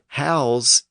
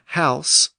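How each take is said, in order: First: The word ends with a buzzing Z sound. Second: The word ends with a hissing S sound. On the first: To give lodging, as a verb. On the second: A building to live in, as a noun.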